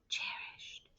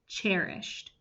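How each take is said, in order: First: It is said in a soft whisper. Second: It is said in a plain, ordinary voice. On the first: "whisper voice" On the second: "say the word cherished with me"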